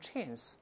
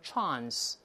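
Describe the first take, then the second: First: The word is said with an American pronunciation. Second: The word is said with a British pronunciation. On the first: "美音中读成chance" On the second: "英国人读成chance"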